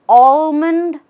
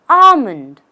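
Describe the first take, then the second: First: The L sound is pronounced in the word. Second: The L sound is left out of the word. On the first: The speaker calls it wrong. "Have you ever said almond" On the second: The speaker calls it right. "The right way is almond. Just say almond ... without the L"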